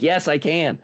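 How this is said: It is said with strong conviction.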